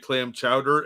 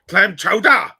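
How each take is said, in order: First: It is said in a plain, non-Boston accent. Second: It is said in a Boston accent.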